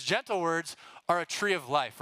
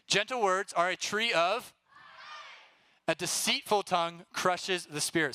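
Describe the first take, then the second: First: "tree" leaned on, line read through; stress on tree. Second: Fill-in-the-blank reading. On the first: Leader rereading the full verse, stressing "tree". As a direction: land on "tree of life" as the point. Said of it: "He says". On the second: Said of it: "here we go, ready?". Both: Shown as a demonstration.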